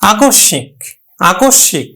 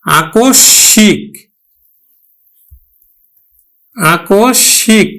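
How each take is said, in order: First: আকস্মিক at natural speed as akosh-shĩk; nasalised pronunciation. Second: আকস্মিক drawn out slowly as akosh-shĩk; pronunciation demo. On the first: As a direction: say আকস্মিক briskly, doubled sh and nasal i. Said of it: "নাসিক ধ্বনির উপর কিন্তু এখানে একটু প্রভাব পড়ছে". (আকস্মিক দ্বিত্ব ও নাকি উচ্চারণ) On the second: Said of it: "যেমন আমরা উচ্চারণ করবো এবার". (আকস্মিক ধীরে টেনে উচ্চারণ) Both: Shown as a demonstration.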